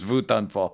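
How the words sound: It is said with a German accent.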